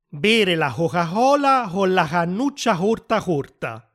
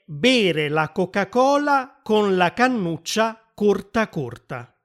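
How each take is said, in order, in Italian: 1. La c dopo le vocali è un suono h aspirato. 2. La c dopo le vocali è un suono k duro. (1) "che in toscano diventa" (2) "Una frase che si dice sempre quando si imitano i toscani"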